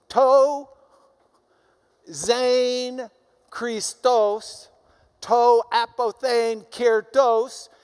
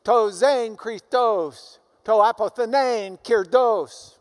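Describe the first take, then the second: First: To zen Christos, to apothein kirtos drawn out very slowly and louder, zen stretched long; slower sounded Greek. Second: To zen Christos, to apothenein kirdos spoken slowly and louder, each syllable distinct; sounded Greek. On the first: Teacher repeats the Greek line even slower so students hear the echo. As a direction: linger on zen Christos, stretching each vowel. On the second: Teacher reads Paul's Greek aloud to show the sound echo, slow and loud. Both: Shown as a demonstration. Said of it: "if you sound the Greek".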